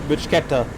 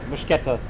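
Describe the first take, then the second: No difference in how they are said.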